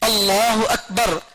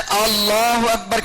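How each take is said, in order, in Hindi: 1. स्वर छोटे रखे गए हैं, खींचे नहीं गए। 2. वाक्यांश में एक स्वर लंबा खींचा गया है। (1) "ये पढ़ने के बजाय" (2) "खींच दिए"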